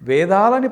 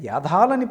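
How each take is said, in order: First: The word begins with a 've' sound. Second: The word begins with a 'ya' sound. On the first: The speaker calls it right. "వేదాలని పలకటానికి చేత కాక" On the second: The speaker calls it wrong. "యాధాలని పలుకుతున్న వీళ్ళంట"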